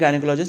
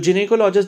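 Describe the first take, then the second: First: The first syllable sounds like 'guy'. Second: The first syllable sounds like 'jin'. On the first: The speaker calls it wrong. "वैसे हम बोल लेते हैं गायनेकोलॉजिस्ट, लेकिन वो गलत है" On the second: The speaker calls it right. "इसका करेक्ट प्रोनाउंसिएशन होता है"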